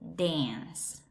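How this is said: It is said in an American English accent.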